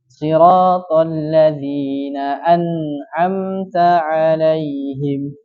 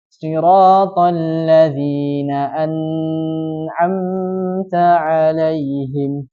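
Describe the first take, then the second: First: The n sound flows briefly and lightly. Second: The n sound is stretched out too long. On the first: The speaker calls it right. "jadi sedikit saja, ... Mengayunkan saja" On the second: The speaker calls it wrong. "tidak boleh juga memanjangkannya. Contohnya yang salah"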